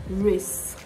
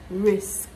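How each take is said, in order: First: The word ends with an 's' then a 'k' sound. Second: The word ends with an 's' then a 'k' sound.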